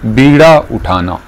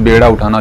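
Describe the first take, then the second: First: The first vowel sounds like 'ee'. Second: The first vowel sounds like 'ay'. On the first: The speaker calls it right. "दुरुस्त है बीड़ा" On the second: The speaker calls it wrong. "लोग इसको बेड़ा भी बोलते हैं"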